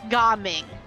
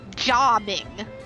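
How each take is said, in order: First: The name begins with a hard G sound. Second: The name begins with a soft J sound. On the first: This is how the name is said in the English version. The speaker calls it wrong. "in our English version, we pronounce it Gaming" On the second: This is how the name is said in its native language. The speaker calls it right. "his name is actually supposed to be Jaming"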